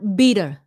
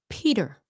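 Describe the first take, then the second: First: The word begins with a voiced B sound. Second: The word begins with a breathy P sound. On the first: The speaker calls it wrong. "not Beater. Vietnamese get that wrong all the time" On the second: The speaker calls it right. "So it's Peter"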